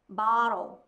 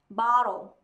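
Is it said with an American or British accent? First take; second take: American; American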